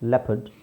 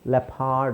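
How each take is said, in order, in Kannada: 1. ಎರಡನೇ ಉಚ್ಚಾರಾಂಶದಲ್ಲಿ 'er' ಎಂಬ ಹ್ರಸ್ವ ಸ್ವರ ಇದೆ. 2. ಎರಡನೇ ಉಚ್ಚಾರಾಂಶದಲ್ಲಿ 'ar' ಎಂಬ ದೀರ್ಘ ಸ್ವರ ಇದೆ. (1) "ಬಟ್ ಇದನ್ನು ನಾವು ಅ ಅಂತ ಪ್ರೊನೌನ್ಸ್ ಮಾಡ್ತೀವಿ" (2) "ಲೆಪಾರ್ಡ್ ಅಲ್ಲ"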